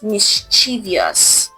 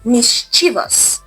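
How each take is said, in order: First: An extra 'ee' sound is added. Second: There is no extra 'ee' sound. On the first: The speaker calls it wrong. "not mischievous" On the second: The speaker calls it right. "there is no extra I in this word"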